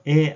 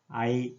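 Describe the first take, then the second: First: The vowel is a single steady sound. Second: The vowel glides from 'a' to 'i'. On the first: This is how it is said today. "지금처럼 에 한 번에" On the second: This is how it was said in Middle Korean. "아이 이렇게 발음했다"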